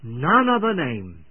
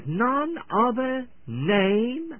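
First: "none other name" repeated firmly, set apart, falling at the end; emphasized words. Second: "none other name" slow, high and rising at the end; drawn-out verse reading. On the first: Preacher repeating the verse's key words, emphatic. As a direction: stress each word of "none other name", coming down on "name". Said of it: "Let me emphasize the words". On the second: Preacher reading scripture to the unsaved, slow and lifted. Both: Shown as a demonstration.

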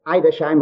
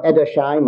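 First: Edersheim opening with "eye", as EYE-der-shime; first pronunciation variant. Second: Edersheim opening with a short e, as ED-er-shime; second pronunciation variant. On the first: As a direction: say Edersheim with a long i at the start. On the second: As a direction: say Edersheim with "ed" at the start. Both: Shown as a demonstration. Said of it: "or however it's said".

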